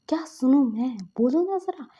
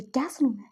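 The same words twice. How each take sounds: First: Angry, louder. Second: Angry. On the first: Furious elder brother confronting his friend, louder angry repeat. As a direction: snap the repeat harder. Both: Acted. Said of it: "season बहुत गुस्से में थे".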